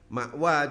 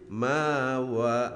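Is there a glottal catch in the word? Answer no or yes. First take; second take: yes; no. First: A glottal catch is heard in the middle. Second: A long vowel replaces the glottal catch.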